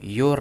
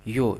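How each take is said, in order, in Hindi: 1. इस शब्द के अंत में एक स्पष्ट r ध्वनि है। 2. इस शब्द के अंत में कोई r ध्वनि नहीं है। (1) "योर नहीं" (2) "र यहाँ पे साइलेंट होता है प्रोनाउंसिएशन में, तो इसको पढ़ते हैं यो।"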